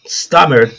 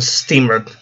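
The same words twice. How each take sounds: First: "stammered" with an open a in the first syllable; corrected stammered. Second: "stammered" said with a long ee, like "steamered"; mispronounced stammered. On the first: Reader correcting the slip, "stammered" with an open a. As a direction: say "stammered" as "STAH-merd", not "steamered". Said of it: "I guess". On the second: Reader misreading the story, "stammered" said as "steamered". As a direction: read "stammered" slowly as "STEE-mered". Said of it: "stammered, I guess". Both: Real, not acted.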